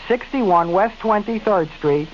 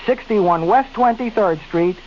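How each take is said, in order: Both takes have the same delivery.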